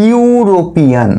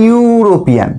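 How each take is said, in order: First: ইউরোপিয়ান drawn out slowly, starting clearly on the "yu" sound; slow pronunciation demo. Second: Said in the usual way. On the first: Shown as a demonstration. Teacher showing students how ইউরোপিয়ান begins, slow and careful. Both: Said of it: "উচ্চারণটা কি?".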